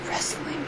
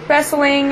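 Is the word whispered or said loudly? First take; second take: whispered; loudly. First: It is whispered in a small voice. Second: It is said out loud, more loudly.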